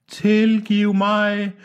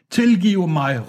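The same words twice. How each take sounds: First: Very slow, high, held-out call; long-drawn pleading cry. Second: High, falling cry for forgiveness; pleading shout. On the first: Departing man begging forgiveness from afar, drawn-out high cry. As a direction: stretch each syllable as if drifting away. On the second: Departing man begging forgiveness, short high cry. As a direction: call it out high and quickly let it fall. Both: A narrator's reading. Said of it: "råbte han".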